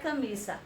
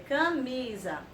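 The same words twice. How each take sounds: First: The middle consonant is a hissing S sound. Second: The middle consonant is a buzzing Z sound. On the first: The speaker calls it wrong. "Se tia Rene colocasse dois S's, ia ser camisa. E não é camisa" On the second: The speaker calls it right. "é camisa"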